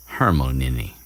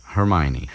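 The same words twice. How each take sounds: First: Hermione said as "Har-mo-nee-nee"; mispronounced. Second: Hermione said properly as "Her-my-oh-nee"; corrected name. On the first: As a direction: Hermione slipped as "Harmonini". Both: Real, not acted. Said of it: "I mean, Hermione".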